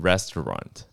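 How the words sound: It is said the American way, with strong R.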